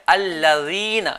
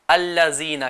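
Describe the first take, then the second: First: Slow correct الذین; correct pronunciation. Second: الذین with a z sound instead of dhal; wrong pronunciation. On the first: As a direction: show the proper dhal, tongue between teeth. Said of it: "اور صحیح تلفظ کیا ہے". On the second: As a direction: demo how beginners misread it. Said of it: "جیم نکال رہے ہوتے ہیں یا زا نکال رہے ہوتے ہیں". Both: Shown as a demonstration.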